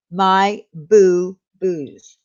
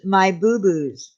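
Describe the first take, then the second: First: Each word drawn out slowly; slowly repeating My Boo Boos so viewers catch the name; slow and clear. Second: Said in the usual way. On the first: Shown as a demonstration. Repeating channel name for chat.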